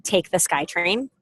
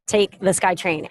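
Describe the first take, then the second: First: Slow, rising, incredulous echo; slow offended question; offended disbelief. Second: Husband's short, unbothered instruction; flat matter-of-fact reply; curt and flat. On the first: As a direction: repeat it as if insulted. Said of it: "I was quite offended". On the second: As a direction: say it like it settles everything. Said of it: "That's all he said". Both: Retold or imitated.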